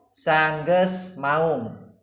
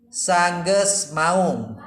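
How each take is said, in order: Both takes have the same delivery.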